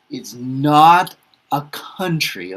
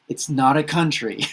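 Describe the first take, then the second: First: Slow, louder, leaning hard on "not"; firm correction with "not" stressed. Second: Said in the usual way. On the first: Shown as a demonstration. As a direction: press the word "not" to correct them.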